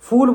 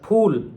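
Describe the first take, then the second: First: The word begins with an f sound. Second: The word begins with lips pressed, a ph sound. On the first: It means a fool. The speaker calls it wrong. "ऐसे फूल बोल देंगे तो English वाला हो जाएगा मूर्ख" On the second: It means a flower. The speaker calls it right. "होठ चिपका के"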